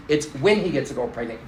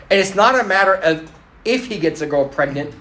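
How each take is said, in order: First: WHEN punched, the rest falling away softer; stress on WHEN. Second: IF set apart after a break; stress on IF. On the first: A mother sure her son will err, stressing WHEN. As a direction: hit "when" as the correction, then drop off. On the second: A mother on her son's future, stressing IF. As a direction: lean on "if", holding the thought open. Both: Retold or imitated.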